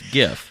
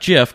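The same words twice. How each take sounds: First: The word starts with a hard G sound. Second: The word starts with a soft J sound. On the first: The speaker calls it right. "It's graphical, so it's GIF" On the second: The speaker calls it wrong. "It's not GIF"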